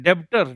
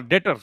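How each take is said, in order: First: डेब्टर with a clearly sounded b; b pronounced. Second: डेटर with the b left silent. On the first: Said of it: "बी को खामोश कर दो". (डेब्टर में ब का साफ़ उच्चारण) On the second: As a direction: say डेटर, going straight to the t. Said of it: "इसका एक्चुअल प्रोनाउंसिएशन होगा डेटर". (डेटर में ब खामोश, सीधे ट) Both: Shown as a demonstration.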